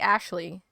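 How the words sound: The name is said with an American English pronunciation. "in English we say Ashley"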